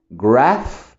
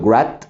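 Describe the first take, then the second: First: Graph said with a breathy th at the end, not a t; careful teacher model of Graph; correct th. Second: Grat said with a hard t in place of th; the mistake to avoid, grat; wrong t ending. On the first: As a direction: blow air out at the end of Graph. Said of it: "Hay que pronunciar esa T H". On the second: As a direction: clip grat off on the t. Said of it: "no estoy diciendo grat". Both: Shown as a demonstration.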